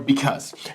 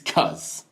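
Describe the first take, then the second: First: The word is said in full, two syllables. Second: The word is clipped to one short syllable.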